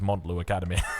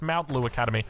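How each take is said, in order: First: The first syllable sounds like 'mont'. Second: The first syllable sounds like 'mount'. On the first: This is how the speaker insists on saying it. The speaker calls it right. "No, my friend, it is Montlu Academy" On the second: This is how some commenters say it should be. The speaker calls it wrong. "there's a lot of people that will comment saying it's not Montlu Academy, it's Mount Lu Academy"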